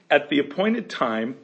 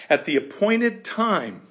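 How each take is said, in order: First: Said in the usual way. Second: "At the appointed time" slower and higher, leaning on "appointed"; slow, lifted emphasis on "appointed"; emphatic reread. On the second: Shown as a demonstration. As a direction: linger on "appointed" to stress the promise.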